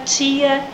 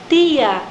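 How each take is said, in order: First: It is said in a general Brazilian accent. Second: It is said in the local island accent. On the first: This is how people elsewhere in Brazil say it. "as outras pessoas do Brasil dão preferência para tia, dia" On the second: This is how island locals say it. "o manezinho usa o tia, dia"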